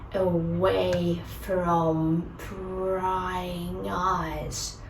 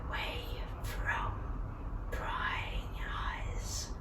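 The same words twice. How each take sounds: First: It is spoken aloud, slowly. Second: It is whispered.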